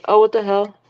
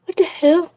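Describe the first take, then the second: First: Said in the usual way. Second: Distant delayed speaker echo; bluetooth speaker. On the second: Real, not acted. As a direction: echo played back through a speaker. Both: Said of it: "for some reason it's playing our audio".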